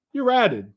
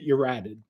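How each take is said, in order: First: "ratted" higher and stronger; emphatic repeat. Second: Said in the usual way. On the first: Real, not acted. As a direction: hammer "ratted" home the second time. Repeats the accusation twice.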